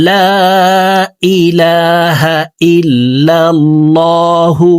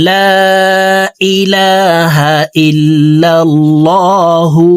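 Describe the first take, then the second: No difference in how they are said.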